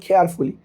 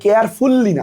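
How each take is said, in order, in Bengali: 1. L ধ্বনিটি একক হয়ে হ্রস্ব করে উচ্চারণ করা হয়। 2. L ধ্বনিটি দ্বিত্ব হয়ে দীর্ঘ করে উচ্চারণ করা হয়। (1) "শব্দটা বলবো কেয়ারফুলি" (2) "মানে শব্দটা কেয়ারফুললি না"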